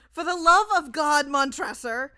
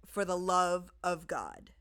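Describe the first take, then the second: First: Much higher, much louder anguished plea; desperate scream. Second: Slow, level mock of the plea; cold mocking echo. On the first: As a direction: scream for mercy. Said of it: "to these words". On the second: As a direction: repeat it back coldly and slowly. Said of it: "I said". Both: A narrator's reading.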